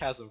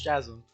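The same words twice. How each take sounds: First: The word is said unlike its English spelling suggests. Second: The word is said as its English spelling suggests. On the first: "but it's pronounced Chasm for no good reason" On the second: "It literally looks like it's pronounced Chasm in English"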